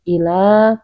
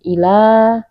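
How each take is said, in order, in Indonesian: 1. Huruf l tunggal dengan vokal yang dipanjangkan. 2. Huruf l tunggal dengan vokal yang dipanjangkan.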